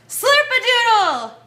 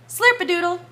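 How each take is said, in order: First: It is shouted as loud as possible. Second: It is said at normal talking volume.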